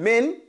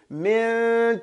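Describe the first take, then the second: First: The n sound is pronounced fully and clearly. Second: The n sound is partly there, faded. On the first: The speaker calls it wrong. "Instead of saying min" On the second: The speaker calls it right. "the noon is there, but it's not all the way. So I fade into"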